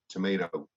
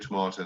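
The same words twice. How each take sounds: First: It is said the way Americans say it. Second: It is said in a non-American, British way.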